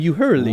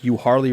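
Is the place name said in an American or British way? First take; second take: British; American. First: The name is said like a British voice. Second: The name is said in a plain American way. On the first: The navigation voice gets the local name wrong. The speaker calls it wrong. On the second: This is how the place name is normally said. The speaker calls it right.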